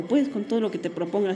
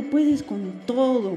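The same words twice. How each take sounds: First: Said in the usual way. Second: "puedes con todo" drawn out slowly with weight on "puedes"; slow emphatic "puedes con todo". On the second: Retold or imitated. Quoting friends cheering her on, "puedes con todo" slow and emphatic. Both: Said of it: "Me dijeron".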